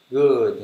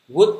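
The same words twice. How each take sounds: First: "Good" louder and falling, with a voiced final d; clear final sound. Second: "Good" cut short with a rising Vietnamese tone, like "gút"; common mispronunciation. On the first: Teacher models the right word, "Good" with clear falling vowel and final d. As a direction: draw out the vowel in "Good" and release the d. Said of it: "mình nên đọc rõ âm cuối ra". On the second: Teacher tests the common learner reading, "Good" mispronounced short and rising. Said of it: "Mọi người hay đọc là good đúng không?". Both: Shown as a demonstration.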